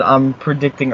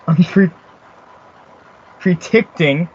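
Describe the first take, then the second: First: Said in the usual way. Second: "predicting" said as "pree-ticting"; halting "pre-, predicting", with a long ee and a hard t; mocking a misspelling. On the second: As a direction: read "predicting" as misspelled, "pree-TICT-ing". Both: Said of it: "he can't even spell".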